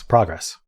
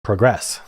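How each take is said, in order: First: "progress" said PRAH-gress, first syllable like "prod"; progress with short o. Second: "Progress" said PROH-gress, first vowel like "go"; progress with long o. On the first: Player trying out "progress" aloud, PRAH-gress pronunciation. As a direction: say "progress" with the open AH vowel, stress on the first syllable. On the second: Player testing the other way to say "Progress", PROH-gress pronunciation. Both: Shown as a demonstration. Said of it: "Is it progress or progress?".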